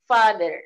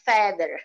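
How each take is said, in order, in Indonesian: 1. Vokal pertama terdengar seperti 'a' panjang. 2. Vokal pertama terdengar seperti 'e'. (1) "Bisa juga dibaca A, long A" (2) "Tidak feather"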